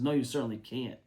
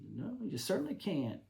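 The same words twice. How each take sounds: First: It is said in a plain voice. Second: It is said in a comic Stan-and-Ollie voice.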